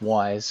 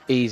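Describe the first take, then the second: First: The name sounds like the English word wise. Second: The name does not sound like wise. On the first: The speaker calls it wrong. "I've been calling this Wise" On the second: The speaker calls it right. "Ys is the way you pronounce it"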